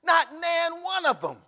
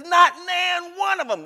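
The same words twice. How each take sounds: First: Not punched high and loud, slowly; stressed Not. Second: Not shouted high and long, slowly; emphasis on Not. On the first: Pastor repeats the verse for emphasis, stressing Not. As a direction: lean on "Not" like a preacher. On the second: Pastor hammers the verse home to the flock, stressing Not. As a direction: hit "Not" hard and stretch it out. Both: Shown as a demonstration. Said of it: "That's an emphasis added by pastor".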